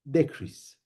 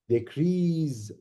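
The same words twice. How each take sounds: First: The stress is on the first syllable. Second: The stress is on the last syllable. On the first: It is used as a noun. "For the noun, stress ... is on the first part" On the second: It is used as a verb. "last part"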